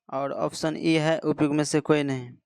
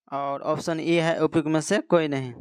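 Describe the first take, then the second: The two takes are said the same way.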